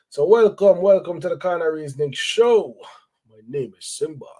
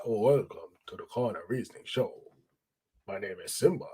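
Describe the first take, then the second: First: Big, bright radio host intro; radio announcer. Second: Lower, softer, laid-back intro; low calm voice. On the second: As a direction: say it low and relaxed, not announcer. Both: Shown as a demonstration. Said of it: "I sound like a radio announcer".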